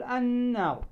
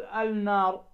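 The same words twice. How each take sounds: First: "النار" as an-naar, long doubled n and no l; assimilated lam. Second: Wrong "النار" as al-naar, l sounded; counter-example "النار", lam pronounced; unassimilated lam. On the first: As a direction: go straight into a held n in "النار". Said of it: "تقول النار مباشرة". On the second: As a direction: say "النار" with a separate l before n. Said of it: "لا تقول النار". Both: Shown as a demonstration.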